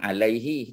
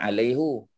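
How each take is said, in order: First: The word ends with an i vowel. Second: The word ends with a u vowel. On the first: The speaker calls it right. "kalau ala, alaihi" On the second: The speaker calls it wrong. "Tak boleh kata alaihu"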